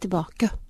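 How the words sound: The final e is narrow, almost like ø. This marks a posh west Oslo way of speaking. "Litt sånn ø-aktig nesten"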